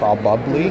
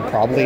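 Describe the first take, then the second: First: Every syllable of the word is pronounced. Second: A syllable is dropped from the word.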